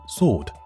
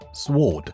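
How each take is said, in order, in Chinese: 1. 这个词读时不发W音。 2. 这个词读时发W音。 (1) "其中的字母W 不发音，所以这个词读作sword" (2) "而不是sword"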